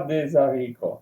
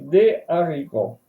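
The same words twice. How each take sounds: First: A linking z sound joins des to haricots. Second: There is no linking z sound before haricots. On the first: The speaker calls it wrong. "pas des haricots. Non, non, c'est faux" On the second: The speaker calls it right. "On ne peut pas faire la liaison. On dit des haricots"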